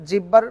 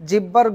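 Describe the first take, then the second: The two takes are said the same way.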